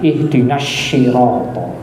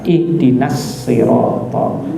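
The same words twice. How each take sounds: First: Sirata starts with a sh sound. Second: Sirata starts with a plain s sound. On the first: The meaning gets damaged. The speaker calls it wrong. "nanti jadi belok ke huruf shin" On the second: The meaning stays the same. The speaker calls it right. "mending dibaca saja dengan huruf sin biasa"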